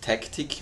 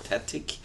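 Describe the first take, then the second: First: A k sound comes before the t. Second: No k sound comes before the t. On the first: The speaker calls it wrong. "Also nicht Tactic, wenn ich immer gemeint habe" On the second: The speaker calls it right. "sondern Tatic"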